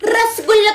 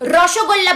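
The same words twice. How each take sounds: First: It is said the way non-Bengali speakers say it. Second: It is said the way Bengali speakers say it. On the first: The speaker calls it wrong. "তোমাদের মতো রসগোল্লা তো বলি না" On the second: The speaker calls it right. "রসগোল্লা বলো"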